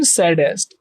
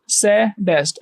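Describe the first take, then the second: First: Said in the usual way. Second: "सैडेस्ट" broken in two, सै, then डेस्ट; split into syllables. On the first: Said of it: "सैडेस्ट एक बार में". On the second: Shown as a demonstration. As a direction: say "सैडेस्ट" as two separate beats. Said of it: "ऐसे बोले". ("सैडेस्ट" को दो हिस्सों में तोड़कर: सै - डेस्ट)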